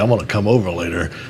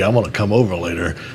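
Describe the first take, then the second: First: It is said in a sly, suggestive tone. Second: It is said in a sly, suggestive tone.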